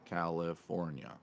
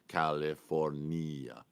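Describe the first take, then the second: First: It is said in the speaker's ordinary accent. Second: It is said in an imitated foreign accent.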